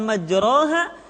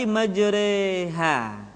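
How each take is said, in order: First: The vowel after r is a plain open a. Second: The vowel after r leans toward e. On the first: The speaker calls it wrong. "bunyinya bukan majraha" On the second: The speaker calls it right. "dibaca miring ke kasrah"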